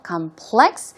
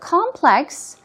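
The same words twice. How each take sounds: First: The stress is on the second syllable. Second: The stress is on the first syllable. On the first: It is difficult. "the stress goes on the second syllable" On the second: It is a group of related, interconnected parts. "means that it is interconnected"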